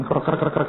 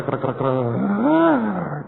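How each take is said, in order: First: Quick rasping belly noises; stomach growl. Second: Very slow, long creaking belly groan; drawn-out stomach growl. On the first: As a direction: mimic a rumbling stomach. (menirukan bunyi perut keroncongan) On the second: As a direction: stretch the rumble out slowly. (bunyi perut keroncongan yang panjang dan lambat) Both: Retold or imitated. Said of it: "suara aneh bunyi dari perut".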